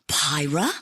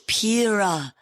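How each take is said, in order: First: The first vowel sounds like 'pie'. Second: The first vowel sounds like 'pee'. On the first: The speaker calls it wrong. "Not Pyra" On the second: The speaker calls it right. "The pronunciation is Pira"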